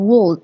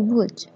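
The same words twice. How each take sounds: First: The L sound is pronounced in the word. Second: The L sound is silent in the word. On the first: The speaker calls it wrong. "bukan would" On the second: The speaker calls it right. "all-nya itu yang ini nggak dibaca"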